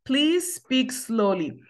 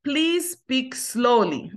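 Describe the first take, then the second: First: Very slow repeat; drawn-out teacher model; slow model phrase. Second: Very slow, words stretched apart; slow model phrase. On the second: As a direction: model it slowly for learners. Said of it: "si m ap pale twò vit". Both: Shown as a demonstration.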